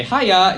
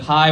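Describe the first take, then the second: First: A bright Scottish "Hiya" with the first syllable raised. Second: Said in the usual way. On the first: Shown as a demonstration. Greeting a shopkeeper the Scottish way, bright "Hiya". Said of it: "you'd say". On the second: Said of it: "instead of".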